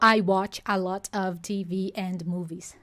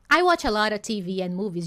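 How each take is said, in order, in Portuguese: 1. A palavra 'and' mantém o som final do d. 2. A palavra 'and' perde o som final do d. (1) "Ele não falou" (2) "esse and acabar virando an"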